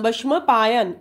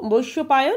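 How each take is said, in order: First: It is said with Hindi pronunciation. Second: It is said with Bengali pronunciation. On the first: "Hindi के उच्चारण होते हैं" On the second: "हम लोग बांग्ला में बोलते हैं"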